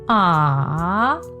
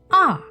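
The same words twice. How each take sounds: First: The pitch dips low, then rises. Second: The pitch falls sharply from high to low. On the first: "your voice must go down, then up" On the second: "let your voice go all the way down"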